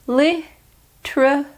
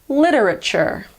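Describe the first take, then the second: First: The first T is a plain t sound. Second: The first T is a quick d-like flap. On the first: "In British pronunciation, you ignore the first E" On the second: "the first T is actually more like a D sound. It's called a flap T"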